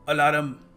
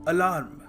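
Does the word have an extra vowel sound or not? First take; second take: extra vowel; no extra. First: The word has an extra added vowel sound. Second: The word has no extra added vowel. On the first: The speaker calls it wrong. "Extra जो ए जो आप लगा लेते हैं, it is wrong" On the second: The speaker calls it right. "सही तरीका है pronounce करने का"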